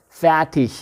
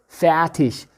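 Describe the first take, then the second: No difference in how they are said.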